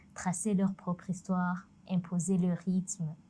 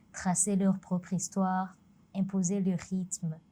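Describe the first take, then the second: Both takes have the same delivery.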